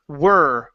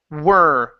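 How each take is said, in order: Both takes have the same delivery.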